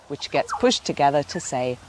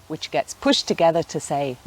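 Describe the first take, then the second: Both takes have the same delivery.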